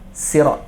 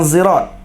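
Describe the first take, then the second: First: The word begins with a plain s sound. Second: The word begins with a z sound. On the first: It is one recognized variant reading. "Sin. Bukan sad" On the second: It is another recognized variant reading. "baca dengan zai"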